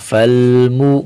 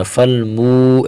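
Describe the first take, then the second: First: فالمو with a short, clean مو; short pesh, right way. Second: فالمو with the مو vowel stretched too long; drawn-out pesh, wrong way. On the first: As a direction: say فالمو without stretching the pesh. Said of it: "پیش کو زیادہ بھی نہیں کھینچنا". (فالمو میں پیش مختصر) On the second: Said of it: "فالمو ایسے نہیں". (فالمو میں پیش کو زیادہ کھینچنا) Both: Shown as a demonstration.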